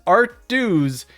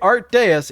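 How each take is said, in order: First: The second word sounds just like 'dues'. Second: The second word does not sound like 'dues'. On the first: The speaker calls it wrong. "If you mispronounce it as Art Dews" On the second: The speaker calls it right. "if you say it Art Deus, it's right"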